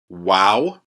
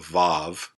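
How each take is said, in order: First: The name begins with a W sound. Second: The name begins with a V sound. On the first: This is the classical Hebrew pronunciation. "So this is the W sound in Hebrew" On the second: This is the modern Hebrew pronunciation. "if you're learning modern Hebrew, this has a V sound"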